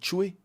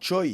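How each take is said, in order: First: The name is said like 'chway'. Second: The name is said like 'choy'. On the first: The speaker calls it right. "ça se dit Choué" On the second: The speaker calls it wrong. "ça se dit pas Choi"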